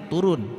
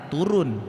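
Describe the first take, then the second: Both takes have the same delivery.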